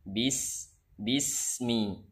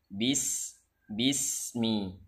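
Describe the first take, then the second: The two takes are said the same way.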